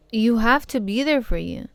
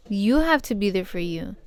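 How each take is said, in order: First: Said in the usual way. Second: "have" lifted with a rising tune; stress on have. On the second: Shown as a demonstration. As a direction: lean on "have" and let it rise.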